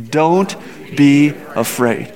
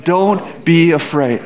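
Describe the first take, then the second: First: Reassuring. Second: Slow reassurance. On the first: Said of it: "Let's say it out loud together". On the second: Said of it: "Let's say that one more, one more time". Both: Shown as a demonstration.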